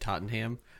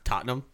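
First: The name is pronounced in an American way. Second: The name is pronounced in a British way. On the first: The speaker calls it wrong. "because you said Tottenham" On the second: The speaker calls it right. "It's Tottenham"

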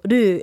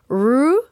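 First: The r is a light tap, like d. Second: The r is a strong, hard r sound. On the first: The speaker calls it right. "it's just little ru. It sounds more like a D than an R" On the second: The speaker calls it wrong. "it's not like ru"

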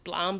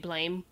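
First: The vowel is an 'ah' sound. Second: The vowel is an 'ay' sound. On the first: This is how other people say it. "people pronounce it as Blom" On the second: This is how the speaker says it. "but I just say Blame"

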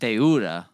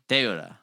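First: The u sound is pronounced clearly. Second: The u sound is barely pronounced. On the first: The speaker calls it wrong. "It's not deuda" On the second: The speaker calls it right. "you don't really pronounce the U"

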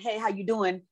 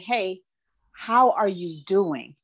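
First: It is a quick, casual passing greeting. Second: It is a slow, sincere, meant greeting.

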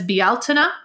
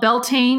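First: The word is said with an Irish-style pronunciation. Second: The word is said with an anglicized American pronunciation. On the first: The speaker calls it right. "The correct pronunciation is Bealtaine" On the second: The speaker calls it wrong. "what Americans call Beltane"

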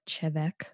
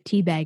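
First: It begins with a ch sound, like chevek. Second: It begins with a t sound, like teabag. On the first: The speaker calls it right. "it's actually pronounced like Chevek" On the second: The speaker calls it wrong. "they say teabag"

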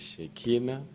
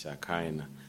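First: The name is pronounced the French way. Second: The name is pronounced the English way. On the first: "So this is Shekinah" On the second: "In English"

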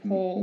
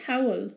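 First: The name has an English 'aw' vowel. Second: The name has a German 'ow' vowel. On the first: The speaker calls it wrong. "Rather than Paul" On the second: The speaker calls it right. "You can say Powell"

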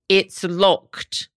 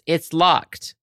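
First: It is said in a British accent. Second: It is said in an American accent. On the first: "I did it in a British accent" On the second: "The classic Nancy Drew voice line is"

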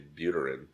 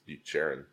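First: The middle consonant sounds like a plain t. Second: The middle consonant sounds like ch. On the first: This is how an American would naively say it. The speaker calls it wrong. "as a dumb American, I'd say Buterin" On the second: This is the name's actual pronunciation. The speaker calls it right. "but it's Bucherin"

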